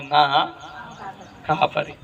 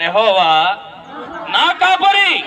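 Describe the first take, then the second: First: Said in the usual way. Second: Loud shout. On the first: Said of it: "బిగ్గరగా చెప్తారు ఈ మాట?". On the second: Shown as a demonstration. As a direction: yell నా కాపరి high and loud. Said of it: "నేను బిగ్గరగా చెప్పమన్నాను, అరిసి చెప్పమన్నాను".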